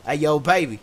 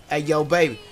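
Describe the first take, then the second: No difference in how they are said.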